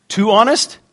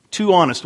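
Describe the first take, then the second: First: TOO HONEST rising high as a question; "Too honest" lifted into a surprised-sounding query; questioning echo. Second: "Too honest" falling as a statement; confirming echo. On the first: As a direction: check you heard "Too honest" right, pitch climbing. Checking a congregant's shouted-out answer. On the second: Confirming the congregant's answer. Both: Real, not acted.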